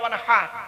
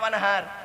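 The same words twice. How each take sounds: First: The h is made deep in the throat. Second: The h is a plain, light breath. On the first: Offer a sacrifice. The speaker calls it right. "গলার ভেতর থেকে এটা উচ্চারণ করতে হবে" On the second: Dig a canal with a spade. The speaker calls it wrong. "আর আমরা কি বলি"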